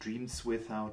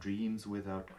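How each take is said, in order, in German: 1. Das finale s ist stimmlos und nicht verbunden. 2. Das finale s ist stimmhaft und wird mit dem Folgenden verbunden. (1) "nicht Dreams without" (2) "gerade die auch stimmhaft"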